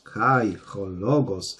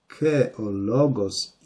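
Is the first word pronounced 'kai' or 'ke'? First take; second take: kai; ke. First: The first word sounds like 'kai', with an h. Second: The first word sounds like 'ke', without h. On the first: This is the ancient Greek reading. "w starogreckim" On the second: This is the modern Greek reading. "w nowogreckim"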